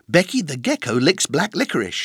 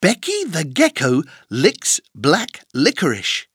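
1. La phrase est dite à un rythme rapide. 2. La phrase est dite à un rythme lent.

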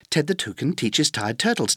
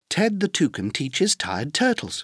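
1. La phrase est prononcée à un rythme très rapide. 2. La phrase est prononcée à un rythme rapide. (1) "Encore plus vite" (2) "plus vite"

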